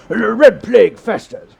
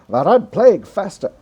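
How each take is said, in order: First: It is read in an exaggerated, hammy English accent. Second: It is read in an American radio announcer accent. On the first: The speaker calls it right. "let's ham it up a little bit more" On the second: The speaker calls it wrong. "that's my American radio voice"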